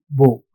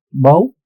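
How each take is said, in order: First: "bow" with the long o of "so"; "bow" rhyming with "so", set apart for contrast; rhymes with so. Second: "Bow" with the ow vowel of "how"; "Bow" rhyming with "how", set apart for contrast; rhymes with how. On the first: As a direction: say "bow" as in ribbon, like "so". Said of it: "It actually rhymes with so". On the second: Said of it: "rhymes with how". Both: Shown as a demonstration.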